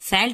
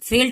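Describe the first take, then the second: First: The vowel is a short a sound. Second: The vowel is a short eh sound. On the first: "फैल्ट नहीं पढ़ेंगे" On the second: "फेल्ट यहाँ पे नहीं पढ़ेंगे"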